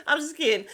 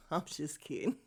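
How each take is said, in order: First: Said in the usual way. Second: A soft, half-swallowed laugh through the words; giggled quietly under the breath. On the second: Real, not acted. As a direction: take back the jab while still giggling. Laughs after a joke jab.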